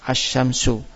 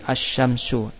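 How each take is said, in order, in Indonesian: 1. L dibuang dan sh dibaca ganda. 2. L dibuang dan sh dibaca ganda.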